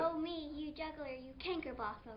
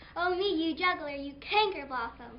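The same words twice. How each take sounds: First: It is said in a plain, neutral tone. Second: It is said angrily, as if just slapped.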